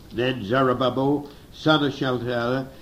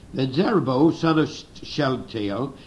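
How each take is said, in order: No difference in how they are said.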